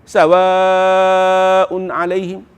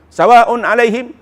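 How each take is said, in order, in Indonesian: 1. Vokal panjang dalam sawaun dibaca panjang. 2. Vokal panjang dalam sawaun dibaca pendek. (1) "Dia kena panjang" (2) "Dia tak boleh baca pendek. ... Tak boleh"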